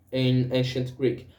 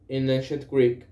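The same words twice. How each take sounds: The two takes are said the same way.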